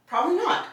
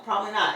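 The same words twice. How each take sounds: First: Probably not, sharply higher with a rise; high rising. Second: Said in the usual way. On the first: Real, not acted. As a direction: toss it up high, almost a question. Rhetorical answer, emphatic rise.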